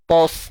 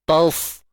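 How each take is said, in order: First: The syllable is said with a thick vowel. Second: The syllable is said with a thin vowel. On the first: The speaker calls it wrong. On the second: The speaker calls it right.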